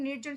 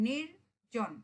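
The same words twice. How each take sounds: First: Said in the usual way. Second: নির্জন said slowly as নির-জন, two beats; split into syllables. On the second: Shown as a demonstration. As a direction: pause between নির and জন, slow. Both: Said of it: "নির্জন শব্দে দুটি অক্ষর".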